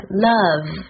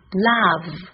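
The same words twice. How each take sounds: First: "love" with a short, tight UH vowel; correct short vowel. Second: "love" with a too-open AH vowel; mispronounced love. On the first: Teacher asking everyone to listen, "love" with short UH. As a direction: model "love" as "luhv", vowel kept compact. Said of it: "正确的发音是love". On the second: Teacher imitating a common learner mistake, "love" with open AH. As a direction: say "love" as learners wrongly do, like "lahv". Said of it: "很多人会把它念成love". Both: Shown as a demonstration.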